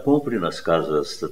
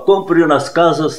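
First: It is calm and conversational, like casual talk. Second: It is loud and shouted, like an announcement. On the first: The speaker calls it right. "você fala, olha" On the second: The speaker calls it wrong. "ao invés de falar assim"

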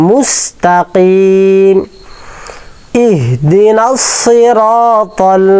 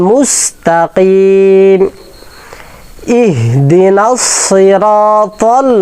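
Both takes have the same delivery.

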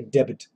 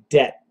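First: The word is said with a B sound. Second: The word is said with no B sound. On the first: The speaker calls it wrong. "do not say debit, That would be wrong" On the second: The speaker calls it right. "you do not pronounce the B"

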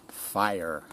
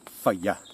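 First: Fire is said in an American accent. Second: Fire is said in his own British accent.

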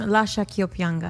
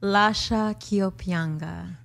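First: It is said at normal speed. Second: It is said slowly.

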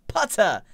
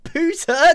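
First: The vowel sounds like the one in but. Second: The vowel sounds like the one in boot. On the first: The speaker calls it right. "it's Putter. Peanut butter putter" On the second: The speaker calls it wrong. "It's not Pooter"

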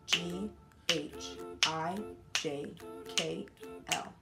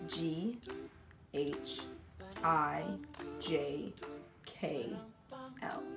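First: The letters are said at a normal pace. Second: The letters are said slowly.

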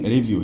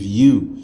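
First: The second syllable has a vowel other than long u. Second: The second syllable has a long u vowel. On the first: The speaker calls it wrong. "هي عمرها ما تكون review" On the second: The speaker calls it right. "لان الاي دبليو تبقى long u"

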